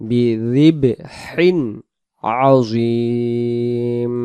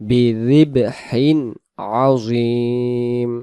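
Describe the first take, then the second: The two takes are said the same way.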